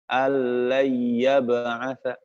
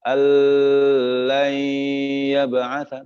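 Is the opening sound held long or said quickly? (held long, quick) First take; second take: quick; held long. First: The opening sound is said quickly without holding. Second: The opening sound is held too long. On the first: The speaker calls it right. "langsung allai allai" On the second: The speaker calls it wrong. "tidak boleh dibaca allai yab'atsa, terlalu lama"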